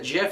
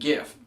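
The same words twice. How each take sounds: First: It starts with a soft J sound. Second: It starts with a hard G sound. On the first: "pronounced like the peanut butter" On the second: "looks like a hard G to me"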